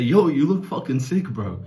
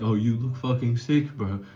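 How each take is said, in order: First: It is said with lively, high energy. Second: It is said flatly, with low energy.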